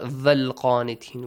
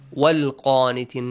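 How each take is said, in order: First: The first word begins with a V sound. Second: The first word begins with a W sound. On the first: The speaker calls it wrong. "not val qanitin. We don't have va" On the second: The speaker calls it right. "Sometimes wow is also important"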